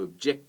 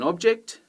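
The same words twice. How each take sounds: First: "object" as a verb, ob-JECT; stress on second syllable. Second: "object" as a noun, OB-ject; stress on first syllable. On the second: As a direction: hit OB in "object". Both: Shown as a demonstration.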